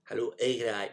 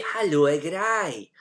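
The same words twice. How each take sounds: First: Said in the usual way. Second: "Agrai" said slowly, stressed on "grai"; drawn-out fond "Hello, Agrai"; familiar greeting. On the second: Shown as a demonstration. Teacher models a fond greeting slowly. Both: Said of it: "if you want to be very familiar".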